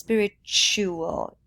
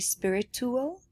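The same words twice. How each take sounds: First: The middle t is a ch sound. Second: The middle t is a plain t sound. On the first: The speaker calls it right. "but it's spiritual. Ch, like future" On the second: The speaker calls it wrong. "I heard you say spiritual"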